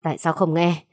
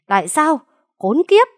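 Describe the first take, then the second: First: Bitter demand. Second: Tại sao flung out high and loud, then Khốn kiếp screamed much higher; frantic yell. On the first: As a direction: demand an answer through clenched anger. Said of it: "gằn giọng đầy phẫn nộ". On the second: Father screams at the young man, beside himself. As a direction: lose all control and scream. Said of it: "như phát điên". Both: Acted.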